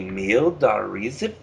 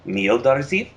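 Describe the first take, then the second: First: It is said slowly with every syllable. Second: It is said quickly with a syllable dropped.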